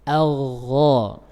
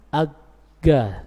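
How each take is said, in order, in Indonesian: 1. Konsonan tengahnya adalah gesekan serak di tenggorokan yang bersambung. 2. Konsonan tengahnya adalah g yang tajam dan terhenti. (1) "Karena dia ada sifat rakhawa, jadi tidak diputus" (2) "salah kalau orang membacanya dengan ga"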